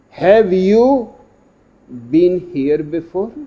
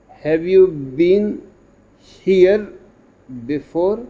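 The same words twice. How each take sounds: First: The stress falls on "you". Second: The stress falls on "here".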